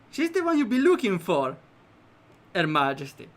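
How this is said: There is a pause before 'Her Majesty'.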